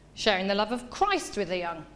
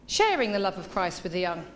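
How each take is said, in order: First: The word Christ carries the main stress. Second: The word sharing carries the main stress. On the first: The focus is on whose love is being shared. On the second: The focus is on how the act of sharing is done.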